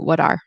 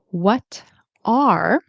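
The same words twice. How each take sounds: First: The t in 'what' sounds like a D. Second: The t in 'what' is a clear T.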